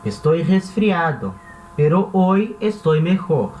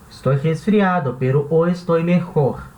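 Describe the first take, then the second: First: It is read slowly and carefully. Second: It is read at a natural, normal speed.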